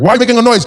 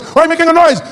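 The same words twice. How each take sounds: First: Loud, raised-pitch scolding; acted angry question; mock angry parent. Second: Very high, loud scolding; heated imitated parent yell; mock escalating anger. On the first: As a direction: demand it like a cross parent. Angry parent, first take. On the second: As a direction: repeat it shriller, as a parent losing patience. Angry parent repeats, more heated.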